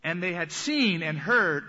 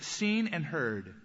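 First: "seen" stressed, a little slow. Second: "seen" drawn out and weighted; slow stress on seen. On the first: Preacher to congregation, repeating phrase with emphasis. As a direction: give "seen" the weight, fall on "heard". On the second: Preacher to congregation, slow weighted phrase. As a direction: lean slowly into "seen", let "heard" fall. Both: Shown as a demonstration. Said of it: "this phrase".

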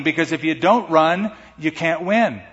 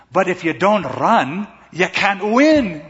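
First: Said in the usual way. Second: Put-on a touch of a smiling, encouraging girlfriend; smiling encouragement. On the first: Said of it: "Such good wisdom". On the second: Girlfriend cheering up the defeated runner, lightly voiced smile. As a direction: gently coax him with a smile. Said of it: "she smiles".

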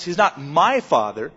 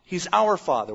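First: Contrastive weight on "my", tune left rising; stress on MY. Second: "our" stressed as the correction, then falling softer. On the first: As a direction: set up "my" to be corrected. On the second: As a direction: answer with weight on "our", settle downward. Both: Shown as a demonstration. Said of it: "shows our relationship to everyone else".

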